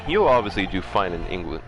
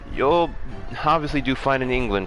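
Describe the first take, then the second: First: It is read without the intended character voice. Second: It is read in the intended character voice. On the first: The speaker calls it wrong. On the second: The speaker calls it right.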